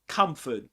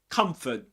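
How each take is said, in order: Both takes have the same delivery.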